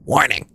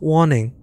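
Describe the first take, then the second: First: American "Warning" with a sounded r; low-pitched American accent on "Warning", r pronounced; American-style accent. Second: British "Warning" with the r dropped; British accent. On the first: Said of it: "warning in seventeen different accents". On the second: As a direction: say "Warning" like a Brit. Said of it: "That was British". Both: Acted.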